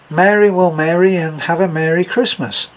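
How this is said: Spoken in an American accent, Mary/marry/merry alike.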